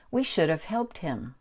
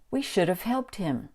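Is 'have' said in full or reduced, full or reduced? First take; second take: reduced; reduced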